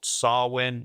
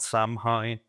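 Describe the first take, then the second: First: The name is said like 'sow-in'. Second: The name is said like 'sam-hane'. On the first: The speaker calls it right. "I remember to pronounce that correctly" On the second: The speaker calls it wrong. "It's not Samhain"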